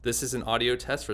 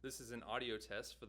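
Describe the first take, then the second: First: The voice is recorded loud and clear. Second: The voice is recorded very quiet and faint. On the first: The speaker calls it right. "you can hear how much louder you can get this mic to be" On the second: The speaker calls it wrong. "you can't really hear anything"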